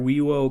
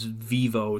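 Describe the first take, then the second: First: The word begins with a W sound. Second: The word begins with a V sound. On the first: This is the classical Latin pronunciation. The speaker calls it right. "I stick to the classical pronunciation. V's are W's" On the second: This is the modern Latin pronunciation. The speaker calls it wrong. "I'm not doing this vivo stuff. That's not a thing. That's modern Latin"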